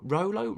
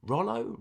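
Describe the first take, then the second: First: "Rollo" said with a long o, as ROH-loh; high, questioning "Rollo" with the o of "roll"; long first vowel. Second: "Rollo" with a short o, as in "doll"; high, questioning "Rollo" rhyming with "follow"; short first vowel. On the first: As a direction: test "Rollo" rhyming with "solo", rising high. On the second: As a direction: test "Rollo" as ROL-oh, rising high. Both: Shown as a demonstration. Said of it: "Is it Rollo or Rolo?".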